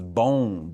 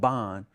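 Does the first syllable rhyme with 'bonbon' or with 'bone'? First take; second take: bone; bonbon. First: The first syllable sounds like the word 'bone'. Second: The first syllable sounds like 'bon' in bonbons. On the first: The speaker calls it right. "This is bone, bonsai" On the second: The speaker calls it wrong. "Not bon, not bonbons"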